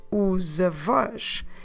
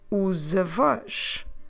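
Both takes have the same delivery.

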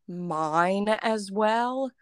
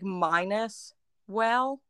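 First: The first word ends with an n sound. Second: The first word sounds like the word minus. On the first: "people started saying mine as well" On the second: "There's another one that people say"

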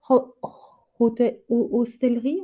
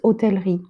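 First: The word is said with an English pronunciation. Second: The word is said with a French pronunciation. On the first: "en anglais? You're going to have to help me with my English pronunciation" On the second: "In French, it's"

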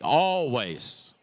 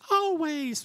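First: It is said in a deep, bassy voice. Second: It is said in a light, thin voice.

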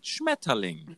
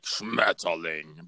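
First: The word sounds soft and gentle. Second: The word sounds harsh and angry.

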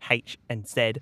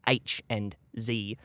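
First: The letters are said the Australian way. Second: The letters are said the American way.

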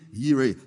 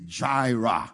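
First: The name is said in a Hebrew way. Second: The name is said in an English way. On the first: "in the real pronunciation in the Hebrew is Yahweh Yireh" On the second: "it's Englishized, and we say Jireh"

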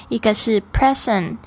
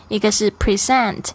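No difference in how they are said.

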